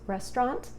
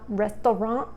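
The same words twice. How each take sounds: First: The word is pronounced in a plain, ordinary way. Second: The word is pronounced in an affected, fancy way. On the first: This is the normal, proper pronunciation. The speaker calls it right. "It's restaurant" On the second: The speaker is pretending to be upper class. The speaker calls it wrong. "It's not restaurant. ... you're putting on airs"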